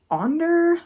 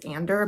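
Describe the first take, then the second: First: The name begins with an 'o' vowel sound. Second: The name begins with an 'a' vowel sound. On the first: The speaker calls it right. "but it's Onder, apparently, according to the book. O N D E R is how you pronounce it" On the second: The speaker calls it wrong. "I believe I kept saying that their name was Ander"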